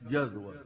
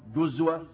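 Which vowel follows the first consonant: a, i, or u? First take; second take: a; u. First: The first syllable has the vowel a. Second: The first syllable has the vowel u. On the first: "بالفتح" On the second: "وبالضم"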